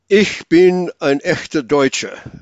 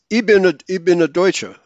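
First: It is said in standard High German. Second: It is said in Swabian dialect, dropping sounds. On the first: "High German" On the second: "But in Schwäbisch"

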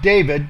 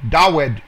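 First: The middle consonant is a V sound. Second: The middle consonant is a W sound. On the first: The speaker calls it wrong. "not David ... not a vav" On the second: The speaker calls it right. "It's a waw"

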